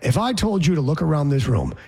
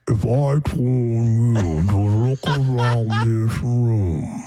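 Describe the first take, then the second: First: It is said at normal speed. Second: It is said very slowly, at quarter speed.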